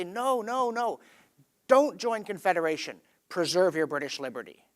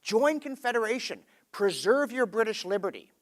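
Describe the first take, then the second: First: Opposing debater. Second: Higher-pitched rallying debater, mildly acted; Confederation supporter. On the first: Retold or imitated. Someone across the aisle answers Confederation's supporters, mildly acted rebuttal. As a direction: counter the other side firmly, pitch falling. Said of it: "someone on the other side of the aisle will say". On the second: People debating Confederation urge joining, mildly acted rallying call. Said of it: "you see people saying".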